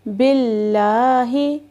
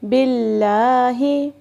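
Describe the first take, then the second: No difference in how they are said.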